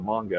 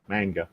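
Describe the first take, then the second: First: It is said in the speaker's own accent. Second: It is said in an imitated Australian accent.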